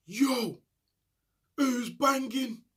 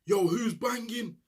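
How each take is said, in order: First: High, slow, drawn-out call from a cell window; shouted call. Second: Window shout. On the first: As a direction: stretch it out across the landing like a night shout. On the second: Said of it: "start shouting out the window". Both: Retold or imitated.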